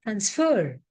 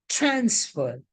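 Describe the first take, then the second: First: Transfer stressed on FER; stress on second syllable. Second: Transfer stressed on TRANS; stress on first syllable. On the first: Teacher reading the second column, stress on FER in transfer. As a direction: hit FER in transfer, trans left weak. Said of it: "the stress has now shifted". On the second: Teacher reading the first column, stress on TRANS in transfer. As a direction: hit TRANS in transfer, fer left weak. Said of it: "stress on the first syllable". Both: Shown as a demonstration.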